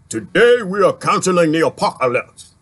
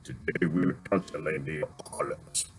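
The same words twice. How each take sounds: First: Idris Elba quote. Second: Much lower, deep, hushed movie-trailer line; deep low rumble, barely above a murmur. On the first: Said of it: "One of his famous sayings". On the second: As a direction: drop the voice low and heavy like a big actor. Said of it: "he got a deep voice too". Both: Retold or imitated.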